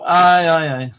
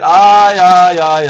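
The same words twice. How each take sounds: First: Said in the usual way. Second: Loud Aye, aye, aye, hammed up; loud mock Spanish cry. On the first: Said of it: "What's it now?". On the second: A mock Spaniard loudly crying out about his sombrero. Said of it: "I said".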